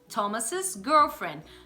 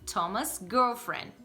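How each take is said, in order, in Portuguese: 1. Thomas é seguido de uma sílaba extra 'iz'. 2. Thomas é dito sem sílaba extra. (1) "como se você acrescentasse um sis no final" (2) "Com só o apóstrofe"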